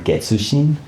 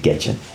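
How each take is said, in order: First: The name is said in its full form. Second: The name is said in a shortened form. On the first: This is the proper form of the name. "That would be kind of the right way to say her name" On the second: This is how the person prefers to be called. "she would say Getchin"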